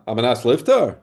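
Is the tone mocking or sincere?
mocking. It is said in a mocking, incredulous tone. The harm is not really permitted. "a guy says to him in such a tone of voice"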